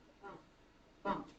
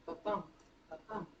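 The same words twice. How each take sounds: No difference in how they are said.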